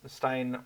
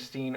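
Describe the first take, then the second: First: The vowel sounds like 'eye'. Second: The vowel sounds like 'ee'. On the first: "or uh, Stein or whatnot" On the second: "if I should be saying Steen or"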